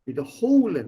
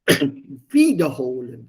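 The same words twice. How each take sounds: First: The stress falls on the 'holen' part. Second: The stress falls on the 'wieder' part. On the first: It means to repeat. "not separable, like besuchen" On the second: It means to fetch back.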